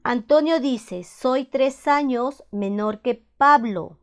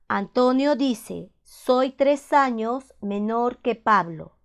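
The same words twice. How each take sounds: The two takes are said the same way.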